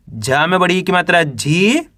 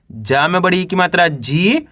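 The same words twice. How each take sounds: The two takes are said the same way.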